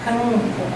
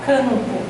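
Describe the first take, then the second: Both takes have the same delivery.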